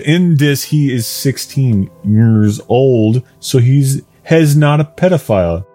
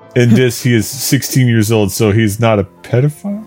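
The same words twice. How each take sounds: First: It is spoken slowly in a lower voice. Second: It is spoken at a quicker pace.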